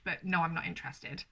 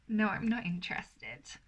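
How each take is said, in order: First: A polite but final no; mean it, no teasing; firm refusal. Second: A playful teasing no; coy refusal.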